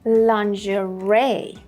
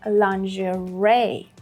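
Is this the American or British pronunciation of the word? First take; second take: American; American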